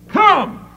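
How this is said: It is said forcefully, as a command.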